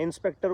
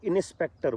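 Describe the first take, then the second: First: The n and s are said together. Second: The n is split off from the s.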